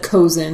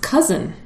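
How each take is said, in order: First: The first vowel sounds like the one in cozy. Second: The first vowel sounds like the one in cuz. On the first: The speaker calls it wrong. "I would have said cozen" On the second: The speaker calls it right. "pronounced cousin"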